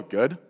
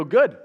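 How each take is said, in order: First: "Good." lower, with a hesitant rising tune; a tentative, questioning "Good?"; unsure answer. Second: "Good." on a firm falling tune; a curt brush-off answer "Good."; short answer. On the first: Stranger answering a chat opener, unsure "Good?". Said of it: "And maybe they'll go". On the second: Stranger brushing off a chat opener, curt "Good.". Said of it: "I guarantee they're gonna go". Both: Retold or imitated.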